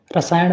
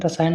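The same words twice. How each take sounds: First: रसायन mispronounced as "rasaayaṇ"; retroflex ṇa. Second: रसायन ending in a plain n; dental na. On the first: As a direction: curl the tongue on the end of रसायन. (रसायन को "रसायण" बोलें) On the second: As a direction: finish रसायन with the tongue forward. (रसायन के अंत में सीधा "न" बोलें) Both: Shown as a demonstration. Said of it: "अड़ा और ना संबंधित".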